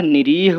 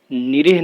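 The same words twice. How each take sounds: First: निरीह with a long drawn 'reee'; corrected long vowel. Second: निरीह with a short second i, 'ni-rih'; wrong short vowel. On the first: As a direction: stretch the second vowel of निरीह, ni-reeh. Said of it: "होता है". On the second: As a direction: keep the end of निरीह short. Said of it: "नहीं होता है". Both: Shown as a demonstration.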